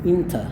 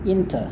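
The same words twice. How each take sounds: The two takes are said the same way.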